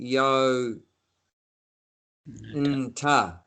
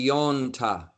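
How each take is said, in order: First: The word is split with a break inside. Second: The word is said smoothly with no break. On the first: The speaker calls it wrong. "you don't say yo nta" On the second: The speaker calls it right. "you say yonta"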